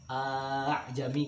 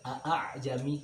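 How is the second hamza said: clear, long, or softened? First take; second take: long; clear. First: The opening vowel is drawn out long. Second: Both hamzas are pronounced clearly and separately. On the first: "membacanya dengan panjang ... itu juga sebuah kesalahan" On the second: "bacanya seperti dijelaskan hamzahnya dua-duanya ... ini salah"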